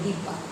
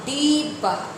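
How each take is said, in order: First: The first vowel is short and clipped. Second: The first vowel is long and drawn out. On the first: The speaker calls it right. "यानी हर्षी की मात्रा लगेगी" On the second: The speaker calls it wrong. "डिब्बा ऐसे नहीं बोलते हैं"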